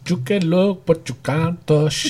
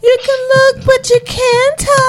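First: Mock foreign accent, softer and drawn out; Maryse. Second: Maryse. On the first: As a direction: put on her accent, stretching the last words slowly. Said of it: "she said it with that accent". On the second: Retold or imitated. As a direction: imitate her in a much higher voice. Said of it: "And then she was like".

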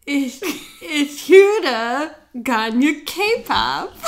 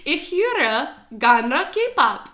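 First: Very slow halting German with a laugh; slow learner attempt. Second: Very slow German, höre drawn out; slow teaching demo. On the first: Learner slowly repeating German, fighting laughter. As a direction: stumble through "Ich höre gerne K-pop" slowly, giggling. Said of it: "She's laughing at me". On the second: Teacher slowly modelling a German phrase for her friend. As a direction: spell out "Ich höre gerne K-pop" word by word in German. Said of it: "The next one". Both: Shown as a demonstration.

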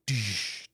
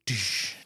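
No difference in how they are said.

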